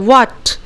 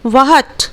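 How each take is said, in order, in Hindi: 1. w सीधे स्वर में मिल जाता है। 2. w के बाद एक अलग h ध्वनि आती है। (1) "डब्ल्यू ए टी का ही उच्चारण करते हैं" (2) "वहट नहीं बोलते हैं"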